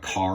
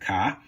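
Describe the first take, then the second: First: The word ends with a clear R sound. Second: The word ends with no R sound.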